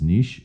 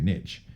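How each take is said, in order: First: The word is pronounced the French way. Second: The word is pronounced the American way. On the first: "the proper pronunciation, because it's a French word, is niche" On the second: "Americans say niche"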